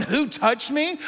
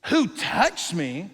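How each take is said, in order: First: Whiny diva asking who touched me; mildly mocking the question; mock prima donna. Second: Drawn-out, slow who touched me; a slow searching question; slow earnest question. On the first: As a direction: play him like a prima donna. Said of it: "Are you being like a prima donna". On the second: Shown as a demonstration. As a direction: ask it slowly, seriously. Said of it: "restated slowly after mockery".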